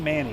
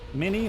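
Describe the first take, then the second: First: The first vowel sounds like the 'a' in 'manny'. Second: The first vowel sounds like the 'i' in 'mini'.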